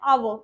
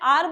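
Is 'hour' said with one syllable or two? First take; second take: two; one. First: The word is said as two syllables. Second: The word is said as one short syllable. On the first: "कई जने बोलते हैं आवो" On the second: "कई जने आर बोलते हैं"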